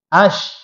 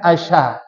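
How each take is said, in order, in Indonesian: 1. Bunyi sh tidak diikuti vokal. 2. Bunyi sh diikuti vokal. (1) "huruf shin dia mati, sakinah. Tidak boleh hidup" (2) "bukan asha"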